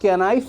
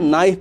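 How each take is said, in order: First: The word begins with a k sound. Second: The word begins with an n sound. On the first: The speaker calls it wrong. "हम उसको कैनाइफ़ नहीं पढ़ते हैं" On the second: The speaker calls it right. "हम उसको नाइफ़ पढ़ते हैं"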